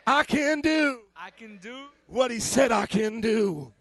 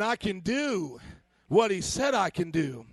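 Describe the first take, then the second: First: It is said with a confident, swaggering attitude. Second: It is said in a plain, neutral manner. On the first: "Now say with a little swag" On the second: "Everybody say this with me"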